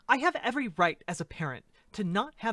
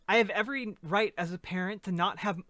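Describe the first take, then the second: First: It is read in a put-on character voice. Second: It is read in the speaker's normal voice. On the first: The speaker calls it right. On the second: The speaker calls it wrong.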